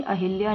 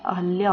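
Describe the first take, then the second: First: अहिल्या as "a-hil-ya"; wrong pronunciation. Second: अहल्या as "a-hal-ya"; correct pronunciation. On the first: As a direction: put a short i after h in अहिल्या. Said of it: "ये अहिल्या नहीं होता है". (अहिल्या में "हिल" बोलें) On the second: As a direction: keep an a after h in अहल्या. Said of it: "अहल्या होता है". (अहल्या में "हल" बोलें) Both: Shown as a demonstration.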